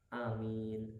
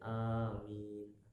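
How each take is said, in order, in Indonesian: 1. Vokal pertama diucapkan pendek. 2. Vokal pertama diucapkan panjang. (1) "Hamzahnya pendek" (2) "Panjang hamzahnya, memnya tidak tasdid"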